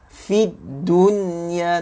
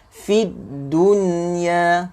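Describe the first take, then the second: The two takes are said the same way.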